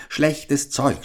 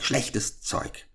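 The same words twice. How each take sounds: First: Put-on higher, scornful old crone grumble; grumbling witch. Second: Whispered, scornful witch's mutter under the breath. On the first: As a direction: spit out the complaint like a picky old hag. (verächtliche alte Hexe, höher) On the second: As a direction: hiss schlechtes Zeug to yourself. (geflüstertes, verächtliches Murmeln der Hexe) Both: A narrator's reading. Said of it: "murmelte sie".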